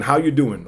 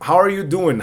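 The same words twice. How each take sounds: First: "How you doing?" with "are" swallowed; casual reduced form. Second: Said in the usual way. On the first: Shown as a demonstration. Teacher contrasts both forms, casual reduced form. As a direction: run "How you doing?" together without an R. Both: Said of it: "no suena el R".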